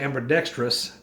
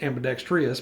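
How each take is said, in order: First: The word is said in a Texan accent. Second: The word is said in a standard accent. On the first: "that's the Texan pronunciation. So y'all would say ambidextrous" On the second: "not ambidextrous"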